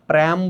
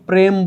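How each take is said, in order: First: The vowel is an open, flattened ae sound. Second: The vowel is a plain closed e sound. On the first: The speaker calls it wrong. "প্র্যাম বলতে পারবা না" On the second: The speaker calls it right. "এটাকে তুমি প্রেম বলবা"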